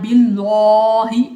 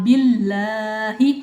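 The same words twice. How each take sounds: First: The L sound is heavy and full. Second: The L sound is thin and light. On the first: The speaker calls it wrong. "ये नहीं पढ़ना बिल्लाही, ऐसे नहीं पढ़ना" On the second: The speaker calls it right. "लाम को बारीक पढ़ेंगे"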